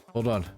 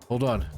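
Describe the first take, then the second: No difference in how they are said.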